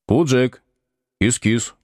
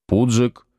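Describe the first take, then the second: First: Coaxing a cat over; calling the cat. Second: Said in the usual way. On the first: Acted. Будкин подзывает кота, ласково зовёт. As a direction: call the cat sweetly. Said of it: "позвал он".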